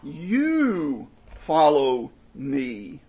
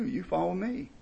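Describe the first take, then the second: First: "You" drawn out very slowly and louder, then follow me; emphatic you. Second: Said in the usual way. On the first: Shown as a demonstration. Preacher showing which word the verse stresses, emphatic "You". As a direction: lean hard and slow on "You". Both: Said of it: "here in verse twenty-two is emphatic".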